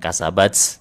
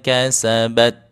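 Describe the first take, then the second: First: The final t is released with an s-like hiss. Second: The final t is crisp, with no hiss. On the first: The speaker calls it wrong. "Bukan kasabats, jangan buru-buru" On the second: The speaker calls it right. "Disyiddahkan dulu. Bagi huruf ta, at, at"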